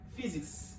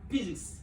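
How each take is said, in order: First: The word begins with an F sound. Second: The word begins with a P sound. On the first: The speaker calls it right. "this P H Y, is pronounced as F" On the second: The speaker calls it wrong. "they call it physics, but it is not physics"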